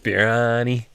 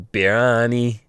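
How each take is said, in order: First: The two words are slurred into one word. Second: The two words are slurred into one word.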